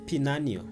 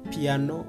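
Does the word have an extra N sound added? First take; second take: yes; no. First: The word has an extra N sound added. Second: The word has no extra sound added. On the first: The speaker calls it wrong. "a person can add sounds to words" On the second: The speaker calls it right. "When he's going to say piano"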